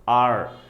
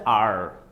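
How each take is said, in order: First: The letter is said with an r sound. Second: The letter is said with an r sound.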